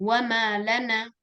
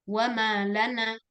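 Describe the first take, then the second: Both takes have the same delivery.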